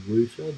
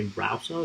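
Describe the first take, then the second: First: Router with an oo vowel; rooter pronunciation. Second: Router with the vowel of "out"; rowter pronunciation. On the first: Streamer showing the version that sounds weird, router as "rooter". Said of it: "just sounds sort of weird". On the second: Streamer showing their usual word, router as "rowter". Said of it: "then I say router". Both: Shown as a demonstration.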